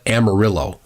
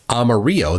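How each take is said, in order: First: The double L is sounded like a hard L. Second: The double L is sounded like a Y. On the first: This is how the locals say it. "with a hard L" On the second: This is the Spanish pronunciation. "nobody calls that town"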